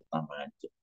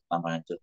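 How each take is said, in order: First: "tambah hancur" sinking lower and much softer, almost gone; fading away. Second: Said in the usual way. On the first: Shown as a demonstration. Despairing man recalling his ruined marriage, trailing off softly. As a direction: let "tambah hancur" die away to nearly nothing. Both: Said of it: "wah tambah hancur".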